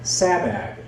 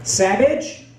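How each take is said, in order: First: "Sabag" with a hard final g, both vowels like cat; phonetic spelling out. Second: "Savage?" said like the English word, v in the middle, rising; wrong pronunciation. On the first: Student correcting the teacher's pronunciation, "Sabag" with a hard g. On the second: Teacher misreading the name, "Savage?" rising. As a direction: question it as "Savage?", higher and unsure. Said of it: "how do you say your last name". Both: Retold or imitated.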